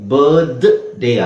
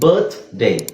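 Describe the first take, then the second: First: The th is a voiced 'dh' sound. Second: The th is a voiceless 'th' sound. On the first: The speaker calls it wrong. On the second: The speaker calls it right.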